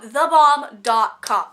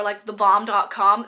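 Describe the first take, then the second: First: "The bomb dot com" slow, each word stretched and louder; drawn-out emphasis. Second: Said in the usual way. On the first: Shown as a demonstration.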